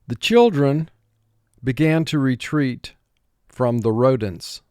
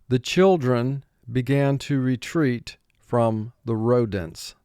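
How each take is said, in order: No difference in how they are said.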